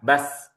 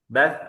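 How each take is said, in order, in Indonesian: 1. Bunyi s itu desis s yang tajam. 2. Bunyi s itu th yang lembut dan cadel.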